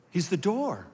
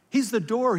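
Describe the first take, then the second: First: Said in the usual way. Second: He's the door said higher and louder, hitting He's; emphatic repeat. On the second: Shown as a demonstration. Pastor repeats it louder to the congregation, emphatic.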